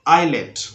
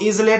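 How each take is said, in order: First: No s or z sound is heard. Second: A z sound is heard before the l. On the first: The speaker calls it right. "पढ़ना है आइलेट" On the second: The speaker calls it wrong. "बिल्कुल नहीं पढ़ना है"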